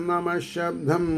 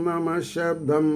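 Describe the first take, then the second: No difference in how they are said.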